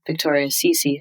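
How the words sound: The surname has an American pronunciation, rhyming with 'me'. "my name pronounced in American English, it rhymes"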